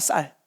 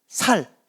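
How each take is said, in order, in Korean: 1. 표준 억양으로 말했어요. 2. 경상도 사투리 억양으로 말했어요.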